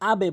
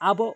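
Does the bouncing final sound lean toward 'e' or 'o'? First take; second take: e; o. First: The bounce on the consonant leans toward 'e'. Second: The bounce on the consonant leans toward 'o'. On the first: The speaker calls it right. "এখানে আবে বলতে হবে" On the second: The speaker calls it wrong. "আবো বলতে পারবেন না"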